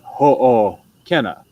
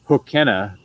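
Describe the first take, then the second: First: A short break separates the two O sounds. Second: The O sounds run together without a break. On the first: The speaker calls it right. "you have this like space" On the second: The speaker calls it wrong. "instead of hokena"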